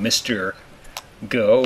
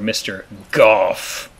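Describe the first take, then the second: First: The name ends on a plain vowel. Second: The name ends with an f sound.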